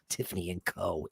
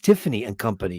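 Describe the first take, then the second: First: The last word is said as the short syllable 'co'. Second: The last word is said as the full word 'company'. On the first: The speaker calls it wrong. "it doesn't mean pronounce it co" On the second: The speaker calls it right. "No, it's Tiffany and Company"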